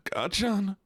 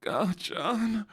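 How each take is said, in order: First: High plaintive anime hero impression; Deku. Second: High anime hero voice, placed further back; Deku. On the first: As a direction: cry out the name in a high put-on voice. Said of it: "You sound like Deku". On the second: Shown as a demonstration. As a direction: call the name high, from further back in the throat. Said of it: "Gachan's a little bit further back".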